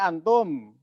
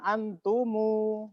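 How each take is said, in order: First: The word ends on a closed m sound. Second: The word ends with an added u vowel. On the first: "kita kan taunya antum" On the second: "Tiba-tiba nanti ada bacaan antumu"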